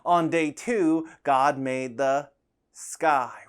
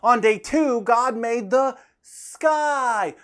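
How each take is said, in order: First: It is said at medium volume. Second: It is said loudly.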